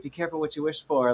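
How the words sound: It is said in a sweet, gentle voice.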